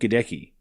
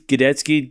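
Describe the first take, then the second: First: The middle of the name has a 'k' sound. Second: The middle of the name has a 'ts' sound. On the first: This follows the English reading of the spelling. The speaker calls it wrong. "definitely not Gadecki" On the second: This is how the bearer of the name says it. The speaker calls it right. "It is Gadetsky"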